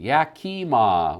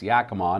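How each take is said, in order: First: The name is pronounced the way an outsider would. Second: The name is pronounced the way locals say it. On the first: The speaker calls it wrong. "It looks like you live in Yakima" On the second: The speaker calls it right. "it's Yakima"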